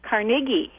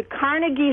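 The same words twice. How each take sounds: First: "Carnegie" with stress on the second syllable, car-NAY-gie; newer pronunciation. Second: "Carnegie" with stress on the first syllable, CAR-nuh-gie; older pronunciation. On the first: Caller asks about the changed pronunciation, "Carnegie" stressed car-NAY-gie. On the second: Caller recalls how she grew up saying it, "Carnegie" stressed CAR-nuh-gie. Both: Shown as a demonstration. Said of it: "Now it's pronounced Carnegie".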